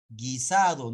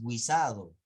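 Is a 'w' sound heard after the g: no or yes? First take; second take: no; yes. First: No 'w' sound follows the g. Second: A 'w' sound follows the g. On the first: The speaker calls it right. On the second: The speaker calls it wrong.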